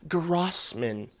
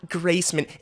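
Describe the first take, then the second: First: The first syllable has an 'ah' vowel. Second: The first syllable has an 'ay' vowel. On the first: The speaker calls it right. "it's Grossman" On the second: The speaker calls it wrong. "It's not Graceman"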